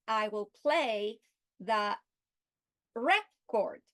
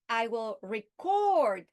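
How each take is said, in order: First: Slow, then "record" as REC-ord; spaced words, punching REC in "record"; stress on first syllable. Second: "record" as re-CORD, slow, CORD held long; stress on second syllable. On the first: Teacher using the noun in a sentence, "record" stressed REC-ord. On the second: Teacher using the verb in a sentence, "record" stressed re-CORD. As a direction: lean hard on CORD in "record". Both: Shown as a demonstration. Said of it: "changing the meaning by changing the stress".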